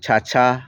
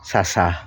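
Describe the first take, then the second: First: The word begins with a ch sound. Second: The word begins with an s sound. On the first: "বাংলায় আমরা যদি বলি" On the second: "Sylheti ভাষায় আহ, ব্য- ও ব্যবহৃত বলা হবে"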